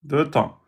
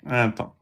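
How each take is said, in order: First: Deux temps echoed lower and much softer; soft confirming echo. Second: Un temps echoed much softer and lower; soft confirming repeat. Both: Shown as a demonstration. Teacher softly confirms sister's answer, low and quiet.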